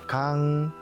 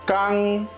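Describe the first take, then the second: First: The first consonant is soft and weak. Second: The first consonant is tense and strong. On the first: "좀 약하게 발음하면 강" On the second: "좀 세게 발음하면 깡"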